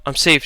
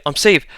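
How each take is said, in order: First: Crying wildly. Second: Frantic, rising cry; crying wildly, louder. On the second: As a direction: yell it more wildly. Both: A narrator's reading. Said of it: "she cried wildly".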